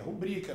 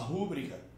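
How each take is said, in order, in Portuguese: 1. A tônica está na segunda sílaba. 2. A tônica está na primeira sílaba. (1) "É rubrica, não tem acento para ser proparoxítono" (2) "mas muita gente fala rúbrica"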